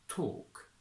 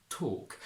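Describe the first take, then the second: No difference in how they are said.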